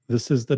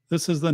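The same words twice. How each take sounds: First: The sound has a dark, bass-heavy tone. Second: The sound has a natural, balanced tone. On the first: The speaker calls it wrong. "This is the dark setting" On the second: The speaker calls it right. "This is the natural setting"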